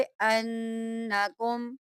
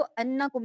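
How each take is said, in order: First: अन्नकुम with a held nasal hum on the doubled न; ghunnah on noon. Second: Said in the usual way. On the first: Shown as a demonstration. Teacher shows the nasal ghunnah to students. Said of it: "नून में गुन्ना करते हैं". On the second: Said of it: "आप इसको अन्नकुम नहीं पढ़ेंगे".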